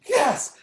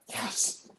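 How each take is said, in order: First: High-pitched, thrilled yes; excited retold cry. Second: Whispered, voiceless yes; breathy mock yes. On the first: Poet in the front row getting into it, excited cry. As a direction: imitate a listener crying out in approval. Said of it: "She's screaming". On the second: Poet in the front row reacting to the poem, hushed fervor. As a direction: imitate a fervent listener under the breath. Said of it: "I hear her going".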